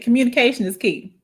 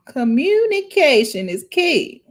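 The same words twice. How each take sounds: First: Said in the usual way. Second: "Communication is key" said slowly, each word weighted; slow emphatic. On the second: Shown as a demonstration. Slowly repeating her key point to viewers, emphatic. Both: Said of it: "Let me write it down".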